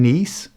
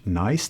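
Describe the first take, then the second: First: It is pronounced like the French city, neess. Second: It is pronounced like the English word nice. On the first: The name of the French city. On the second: It sounds like a pleasant terror, a pun.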